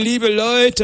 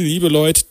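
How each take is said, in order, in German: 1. Es wird in rheinischer Dialektaussprache gesagt. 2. Es wird in standarddeutscher Aussprache gesagt.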